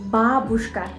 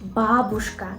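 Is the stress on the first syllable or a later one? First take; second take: first; first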